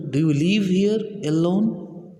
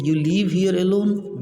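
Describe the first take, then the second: First: Rising question tune on "Do you live here alone"; simple question. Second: "You live here alone" as a statement, falling on "alone"; statement, not question. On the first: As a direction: ask "Do you live here alone" slowly, lifting at the end. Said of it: "what is the simple question of Intruder". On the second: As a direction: tell "You live here alone" rather than ask it, voice dropping at the end. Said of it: "giving your statement". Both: Shown as a demonstration.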